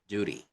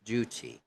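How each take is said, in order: First: The middle consonant sounds like a D. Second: The middle consonant is a clear T. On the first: The speaker calls it wrong. "not as D, not duty" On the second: The speaker calls it right. "Pronounce that T in duty as T"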